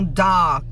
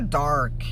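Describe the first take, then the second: First: The vowel is long and wide open. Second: The vowel is followed by an audible r. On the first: "Abre bem a boca no A" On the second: "Americano vai falar dark"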